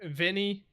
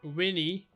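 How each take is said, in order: First: The word begins with a V sound. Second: The word begins with a W sound. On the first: "we would read this in English as" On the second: "a V in Latin is pronounced as a W"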